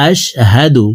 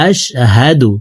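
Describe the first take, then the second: Both takes have the same delivery.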